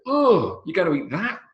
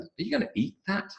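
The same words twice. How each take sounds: First: High-pitched revolted "Oh", then THAT stressed; disgusted. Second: High, soft incredulous question, EAT lifted; emphasis on EAT. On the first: Acted. Someone eyeing a haggis on somebody's plate, high disgusted disbelief. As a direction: recoil in exaggerated disgust, voice shooting up. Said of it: "How disgusting". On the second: Shown as a demonstration. Teacher showing emphasis on the verb, EAT high and stressed. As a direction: lift EAT high in disbelief. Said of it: "Emphasis on the verb".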